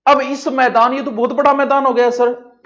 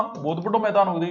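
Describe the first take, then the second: First: Higher, louder voice of an amazed pupil; student's voice. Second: Said in the usual way. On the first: Pretend. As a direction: play the awed student. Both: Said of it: "हाँ मुन्ना".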